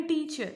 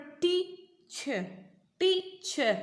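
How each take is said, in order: First: Said in the usual way. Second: TEA... CHER with a long gap, pitched high; split into syllables. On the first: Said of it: "भले आप एक ही बार में बोल रहे हो". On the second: Shown as a demonstration. Teacher showing pupils how टीचर divides, syllable by syllable. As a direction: break टीचर into two slow, separate beats. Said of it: "तो आप इसे कैसे पढ़ रहे हो?".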